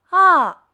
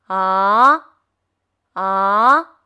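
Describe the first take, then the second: First: The pitch falls sharply from high to low. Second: The pitch rises from middle to high. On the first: "汽车下坡" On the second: "汽车上坡"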